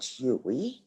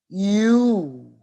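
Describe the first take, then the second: First: It is said as two syllables, hew-ee. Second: It is said as one syllable, like you. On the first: The speaker calls it wrong. "And it's not Huey. No, no, that's wrong" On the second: The speaker calls it right. "The correct pronunciation is you"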